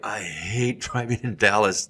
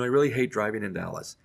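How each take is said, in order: First: It is said with strong, angry conviction. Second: It is said flatly, without feeling. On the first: The speaker truly hates it. The speaker calls it right. "Now you're acting out the emotion" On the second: The speaker does not seem to really hate it. The speaker calls it wrong. "You sound indifferent about it"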